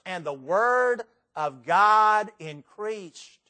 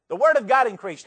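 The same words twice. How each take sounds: First: Deliberate, drawn-out verse reading; slow, weighty emphasis. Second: Said in the usual way. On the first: Shown as a demonstration. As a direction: stretch out "the word of God increased" slowly. Reads verse slowly, then repeats it.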